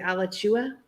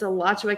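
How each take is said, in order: First: The name is said the outsider way. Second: The name is said the local way. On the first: This is how people from elsewhere say it. The speaker calls it wrong. "but they say Alachua" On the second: This is the proper local form. The speaker calls it right. "so it's Alachua County"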